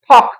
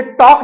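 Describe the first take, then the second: First: टॉक said as ठॉक; breathy-T ठॉक for टॉक; aspirated T. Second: टॉक with a dry, hard T; no puff of air in टॉक; unaspirated T. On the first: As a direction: puff air hard on the T of टॉक. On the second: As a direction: say टॉक with an Indian retroflex T. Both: Shown as a demonstration. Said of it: "टॉक ना बोल करके क्या बोलेंगे".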